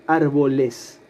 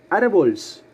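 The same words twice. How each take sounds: First: "árboles" ending in a full syllable "les"; correct plural ending. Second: "Árboles" cut to "árbols", no E before the S; wrong plural. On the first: Teacher gives the class the correct plural, "árboles" with full "-es". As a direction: say "árboles" with the E sounded before the final S. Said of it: "agregando al final la partícula es". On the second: Teacher tries the wrong plural on the class, questioning "árbols". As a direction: tack a bare S onto "Árboles", as a doubtful question. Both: Shown as a demonstration.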